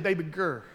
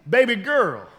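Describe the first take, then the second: First: Put-on low, soft baby girl; softly murmured pet name; usual pet-name call. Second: Said in the usual way. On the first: Shown as a demonstration. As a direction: drop it low and quiet, like at home. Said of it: "I usually say". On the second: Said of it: "which I don't really say that".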